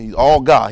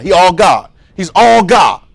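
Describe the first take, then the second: First: "all" hit hard and falling in "he's all God"; stress on all. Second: "all" shouted, louder and higher, in "He's all God"; shouted emphasis. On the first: Preacher pressing "all" for his congregation. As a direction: lean on "all" and let "God" drop. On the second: Preacher shouting "He's all God" to the room. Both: Acted. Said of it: "preacher repeating for emphasis".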